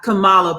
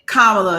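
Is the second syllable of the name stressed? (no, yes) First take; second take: yes; no. First: The second syllable is stressed. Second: The second syllable is not stressed. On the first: The speaker calls it wrong. "that secondary syllable being accented" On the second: The speaker calls it right. "say Kamala"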